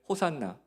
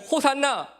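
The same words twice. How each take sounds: First: It is said at a normal volume. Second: It is said more loudly.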